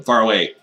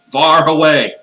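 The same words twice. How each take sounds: First: Firm, raised voice on the words; emphatic. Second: Loud, higher, hammed-up cry; exaggerated shout. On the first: Acted. Master promising cat girls he'll sleep elsewhere, emphatic. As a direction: say it firmly, a bit louder. Repeats it louder for effect. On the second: Master insisting on sleeping well away, exaggerated shout. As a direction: blow it up into a big comic shout. Louder comic repeat.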